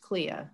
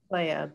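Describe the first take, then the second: First: The first vowel sounds like 'ee'. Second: The first vowel sounds like 'ay'. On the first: The speaker calls it wrong. "she thought it was pronounced Clea" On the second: The speaker calls it right. "because E is pronounced A in Latin"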